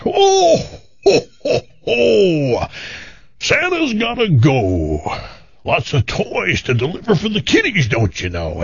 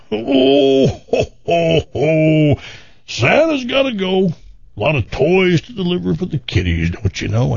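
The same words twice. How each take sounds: First: Jolly Santa voice. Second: High hammed-up Santa laughing ho ho ho; cheery Santa brushing off the offer; jolly Santa voice. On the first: Retold or imitated. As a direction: play a cheery Santa turning her down. Santa voice in told joke. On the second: Santa voice repeated in joke.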